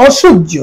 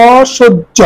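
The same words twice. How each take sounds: First: Said in the usual way. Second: অসহ্য drawn apart as "o... shoj-jo"; careful model pronunciation. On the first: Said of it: "এর উচ্চারণ করি". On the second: Shown as a demonstration. Teacher shows how অসহ্য is pronounced, syllable by syllable. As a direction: stretch the first vowel of অসহ্য, then "shoj-jo". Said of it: "এর উচ্চারণ করি অসহ্য".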